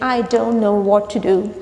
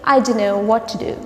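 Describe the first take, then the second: First: Don't know is pronounced fully and separately. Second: Don't know is blended into a reduced dunno. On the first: "Instead of saying I don't know what to do" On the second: "you can say I don't know what to do"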